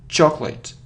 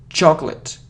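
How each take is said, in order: The two takes are said the same way.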